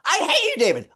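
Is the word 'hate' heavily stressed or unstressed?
stressed. Heavy energy falls on the word hate.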